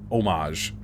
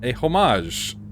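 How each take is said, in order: First: "Homage" with a silent h, French style oh-MAHZH; homage without h. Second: "homage" said with an English h, HOH-mahzh. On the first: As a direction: drop the h in "Homage". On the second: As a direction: sound the h in "homage". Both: Shown as a demonstration.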